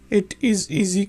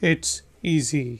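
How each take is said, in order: First: Both words, it and is, are said in full. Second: It and is merge into one short syllable. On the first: "it is easy की बजाय" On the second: "हम जल्दी में बोलेंगे it's easy"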